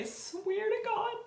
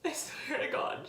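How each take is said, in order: First: High, tear-strained vow; choking up. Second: Breaking into a whisper through tears; the vow half-whispered as she cries; tearful whisper. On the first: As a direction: voice cracking as the tears come. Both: Real, not acted. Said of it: "I'm sorry to get emotional".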